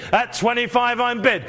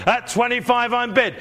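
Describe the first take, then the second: No difference in how they are said.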